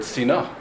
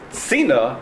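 First: Sina with "na" stressed; stress on second syllable. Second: Sina with "Si" stressed; stress on first syllable. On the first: Teacher quoting the other reading, Sina stressed on the last syllable. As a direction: push the stress to the end of Sina. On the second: Teacher explaining towards Tzin, Sina stressed at the start. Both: Shown as a demonstration. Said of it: "the emphasis needs to be on the first syllable".

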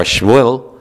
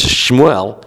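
First: Shmuel squeezed into one syllable, shmool; condensed pronunciation. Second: Shmuel in two syllables, shmoo-EL; partly condensed pronunciation. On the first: Teacher tracing a name's change, Shmuel condensed all the way to shmool. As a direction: shorten Shmuel further, to shmool. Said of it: "gets condensed and quickened". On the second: Teacher tracing a name's change, Shmuel condensed to shmoo-EL. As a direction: drop the first vowel of Shmuel but keep the El. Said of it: "it eventually becomes". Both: Shown as a demonstration.

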